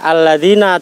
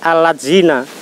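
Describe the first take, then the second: First: The word is said with Arabic sounds. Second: The word is said with Indonesian sounds. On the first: The speaker calls it right. "maka dia akan membaca alladzina" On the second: The speaker calls it wrong. "dibaca menjadi"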